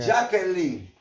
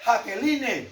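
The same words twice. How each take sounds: First: Jacqueline said the proper way, slowed, no final e; real pronunciation. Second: Jacqueline said as spelled, hard j and final e; spelling pronunciation. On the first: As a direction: say "Jacqueline" slowly the way it is really pronounced. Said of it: "se pronuncia Jacqueline". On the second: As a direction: read "Jacqueline" just as the letters look. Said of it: "¿Cómo se escribe Jacqueline?". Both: Shown as a demonstration.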